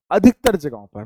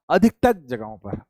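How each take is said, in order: First: अधिकतर hit hard, whole phrase louder; repeated for emphasis. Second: Said in the usual way. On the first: Shown as a demonstration. Teacher repeating to students, अधिकतर said louder for emphasis. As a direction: drive अधिकतर home, louder. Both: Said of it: "मैं फिर से कह रहा हूं".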